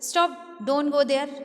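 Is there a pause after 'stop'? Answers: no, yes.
no. There is no pause after stop.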